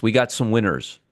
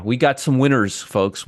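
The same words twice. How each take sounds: First: Said in the usual way. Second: Sarcastic. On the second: Acted. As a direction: fake celebration, hitting "got". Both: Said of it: "I am being really sarcastic".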